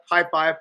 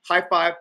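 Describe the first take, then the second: No difference in how they are said.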